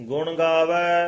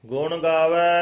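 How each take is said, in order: Both takes have the same delivery.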